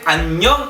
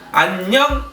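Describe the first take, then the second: First: The pitch rises at the end. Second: The pitch does not rise at the end. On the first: The speaker calls it right. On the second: The speaker calls it wrong.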